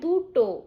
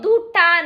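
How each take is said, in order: First: The word ends with an 'o' vowel. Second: The word ends with an 'a' vowel. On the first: The speaker calls it right. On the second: The speaker calls it wrong. "দুটা নয় ভাই"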